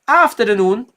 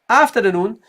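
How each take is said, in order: The two takes are said the same way.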